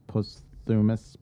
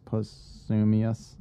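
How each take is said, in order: First: "posthumous" ending in a plain "-mus"; trying a pronunciation. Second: "posthumous" drawn out, ending "-mee-us"; alternative pronunciation. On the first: Reader testing how to say his last posthumous publication, "posthumous" ending "-mus". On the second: Reader retrying the word for his last publication, "posthumous" ending "-mee-us". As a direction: stretch "posthumous" slowly into "post-soo-mee-us". Second try at the same word. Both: Shown as a demonstration.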